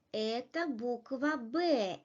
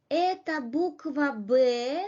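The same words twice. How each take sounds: First: "это буква Б" stated, pitch dropping on the final Б; falling statement intonation. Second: "Это буква Б" asked, pitch rising on the final Б; rising question intonation. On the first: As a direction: let the voice fall on "Б" to confirm. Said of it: "falling intonation". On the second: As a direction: lift the voice on "Б" at the end. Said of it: "pronounced with a rising intonation". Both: Shown as a demonstration.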